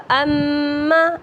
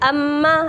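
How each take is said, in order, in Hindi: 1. दोहरे म को नासिका की गुनगुनाहट के साथ बोला जाता है। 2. दोहरा म सादा बोला जाता है, नासिका की गुनगुनाहट के बिना। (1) "ऐसे पढ़ा जाएगा" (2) "ऐसे नहीं होगा"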